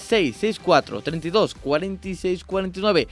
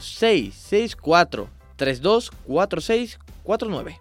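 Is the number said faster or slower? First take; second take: faster; slower. First: The number is said at a faster pace. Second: The number is said at a slower pace.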